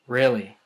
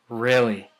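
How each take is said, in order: First: The pitch stays level at the end. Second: The same.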